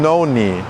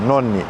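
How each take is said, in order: First: The O vowel glides toward a W sound. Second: The O vowel stays steady without gliding. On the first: The speaker calls it wrong. "instead of going noni" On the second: The speaker calls it right. "Just maintain where your mouth is"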